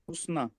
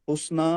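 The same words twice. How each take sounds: First: The final vowel is short. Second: The final vowel is long. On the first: The speaker calls it right. "इसको पढ़ेंगे आप छोटा" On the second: The speaker calls it wrong. "हुस्ना नहीं बोलेंगे"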